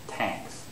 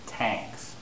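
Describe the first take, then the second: First: The word begins with a T sound. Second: The word begins with a T sound.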